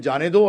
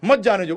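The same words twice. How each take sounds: First: "जाने दो" louder, rising on दो; जाने दो alone. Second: "मत जाने दो" higher, मत punched, falling end; stress on मत. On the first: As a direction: say "जाने दो" as permission, lifting the end. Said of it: "एक जगह बोल रहे हैं". ("जाने दो" दो को उठाकर) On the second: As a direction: hit मत hard as a prohibition. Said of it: "और एक जगह बोल रहे हैं". ("मत" पर ज़ोर देकर "मत जाने दो") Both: Shown as a demonstration.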